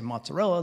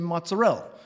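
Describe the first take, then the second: First: The word is said in a plain standard way. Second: The word is said in a local New York way. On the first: This is how outsiders say it. "But they don't say mozzarella" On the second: This is how the locals say it. "They say mozzarella"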